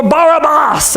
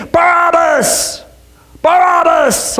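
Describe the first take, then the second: First: Barabbas said as bar-ah-BAHS; original pronunciation. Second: High, drawn-out mob chant of Barabbas; thunderous crowd chant. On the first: Shown as a demonstration. Preacher correcting the name Barabbas to bar-ah-BAHS. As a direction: Barabbas with open ah vowels, higher voice. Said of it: "is probably how it was pronounced". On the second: Acted. Crowd answering the governor, thunderous chant. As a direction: chant Barabbas with the stress on the middle syllable. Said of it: "in a mighty thunderous voice started chanting".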